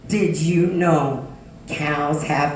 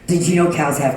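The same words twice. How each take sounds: First: It is said slowly and deliberately. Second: It is said quickly and excitedly. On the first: "So I said it slower" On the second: "very excited and childlike"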